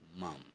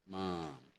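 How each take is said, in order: First: It is said with a British vowel. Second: It is said with an American vowel. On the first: "in the U K they use the word mum" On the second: "In American it's mom"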